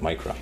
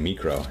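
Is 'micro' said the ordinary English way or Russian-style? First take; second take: ordinary; Russian-style. First: It is said with an ordinary English pronunciation. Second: It is said with a Russian-style pronunciation. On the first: "instead of micro" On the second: "They say micro"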